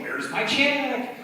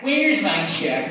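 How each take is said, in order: First: High, slow, pleading; demanding customer voice. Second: Loud, slow, whining complaint; whiny voice. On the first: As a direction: ask it like an impatient client. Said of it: "an even worse voice like that". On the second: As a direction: whine it like a pestering client. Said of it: "whiny voice". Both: Acted.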